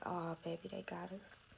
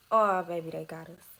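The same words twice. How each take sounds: First: Hushed dismay. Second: Retold alarm. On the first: Retold or imitated. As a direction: say it softly, sinking as it ends. Retold first sight of police. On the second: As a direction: blurt the opening, let the rest fall away. Same reaction retold again.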